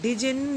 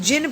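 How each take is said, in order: First: The word begins with a sounded D. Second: The word begins directly with a J sound. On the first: The speaker calls it wrong. "इस word को डिजिन नहीं बोलेंगे" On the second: The speaker calls it right. "इसको जिन pronounce करेंगे। डी is the silent"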